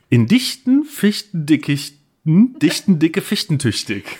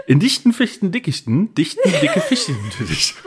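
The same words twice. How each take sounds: First: Slow, deliberate tongue twister. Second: Tongue twister breaking into laughter; laughing through it. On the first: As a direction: feel your way through it slowly. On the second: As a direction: giggle through the last try. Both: Shown as a demonstration. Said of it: "Sage dreimal hintereinander".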